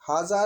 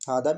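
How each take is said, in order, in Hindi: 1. बीच का व्यंजन z जैसी ध्वनि है। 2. बीच का व्यंजन d की ध्वनि है।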